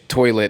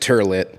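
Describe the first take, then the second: First: The first vowel sounds like 'oy'. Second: The first vowel sounds like 'er'. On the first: "whenever he would say t- toilet" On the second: "he would pronounce it turlet"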